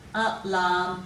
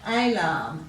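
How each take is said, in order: First: The first vowel is a weak 'uh' sound. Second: The first vowel is a long 'ay' sound. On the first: "let's read them as we say them" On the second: "we should be giving it a long sound"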